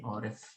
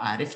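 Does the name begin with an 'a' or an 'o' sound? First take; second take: o; a. First: The name begins with an 'o' sound. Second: The name begins with an 'a' sound.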